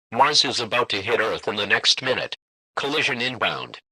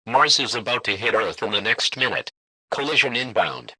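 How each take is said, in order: Both takes have the same delivery.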